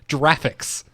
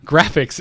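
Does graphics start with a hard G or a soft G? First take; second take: soft G; hard G. First: It starts with a soft j sound. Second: It starts with a hard g sound. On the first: The speaker calls it wrong. "you don't pronounce it graphics" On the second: The speaker calls it right. "graphics is the first word in that acronym"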